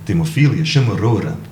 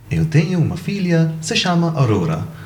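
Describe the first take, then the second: First: It is said in a clipped European Portuguese accent. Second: It is said in a melodic Brazilian accent.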